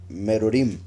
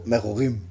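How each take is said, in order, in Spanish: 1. La R es vibrante, con la punta de la lengua. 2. La R es gutural, se produce en la garganta. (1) "Como la pronunciamos en español" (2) "lo pronuncian como en francés"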